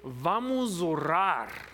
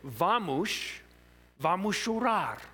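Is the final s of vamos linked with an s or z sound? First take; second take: z sound; s sound. First: The final s links to orar as a z. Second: The final s links to orar as an s. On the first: Let's pray. The speaker calls it right. "the S changes to the Z sound" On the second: Let's cry. The speaker calls it wrong. "I said vamos orar"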